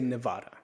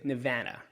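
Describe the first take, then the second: First: It is said as a New Jersey native says it. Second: It is said as a Nevada local says it. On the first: The speaker is not from the state. "I'm from New Jersey, so I'm gonna say Nevada" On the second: The speaker would be from the state. "If I was from here, I'd say Nevada"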